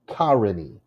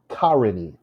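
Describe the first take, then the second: First: The stress is on the first syllable. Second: The same.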